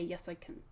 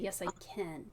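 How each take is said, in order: First: The vowel in can is a reduced schwa. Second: The vowel in can is a full eh. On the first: The speaker calls it wrong. "I wouldn't reduce it to the schwa. I wouldn't say" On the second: The speaker calls it right. "I'd say yes, I can with an eh, as in bed"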